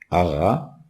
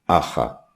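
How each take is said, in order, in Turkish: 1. Ortadaki ünsüz, sesli ve boğazdan çıkan bir ğ sesidir. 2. Ortadaki ünsüz, nefesli bir h sesidir. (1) "Önce doğru yazımı yazmışız" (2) "bunu aha diye okuyalım"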